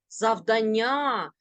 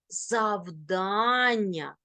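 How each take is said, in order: First: The stress is on another syllable. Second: The stress is on the second syllable. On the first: The speaker calls it wrong. "Ні в якому разі не кажи" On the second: The speaker calls it right. "наголос падає на другий склад"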